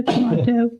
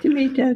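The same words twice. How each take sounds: First: High-pitched "tomato" with an AH in the middle; "tomato" with the middle vowel of father; tomato as to-MAH-to. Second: High-pitched "Tomato" with an AY in the middle; "Tomato" with the middle vowel of day; tomato as to-MAY-to. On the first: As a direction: say "tomato" like tuh-MAH-toe, playfully high. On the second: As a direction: say "Tomato" like tuh-MAY-toe, playfully high. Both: Shown as a demonstration. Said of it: "depending on how you wanna pronounce it".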